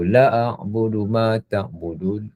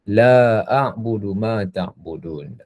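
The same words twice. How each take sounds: First: The vowel in the first word is cut short. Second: The vowel in the first word is held long. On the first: The speaker will surely worship it. The speaker calls it wrong. "Kerana kalau pendek, dia punya implikasi dari sudut bahasanya besar" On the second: The speaker does not worship it. The speaker calls it right. "Aku tidak menyembah"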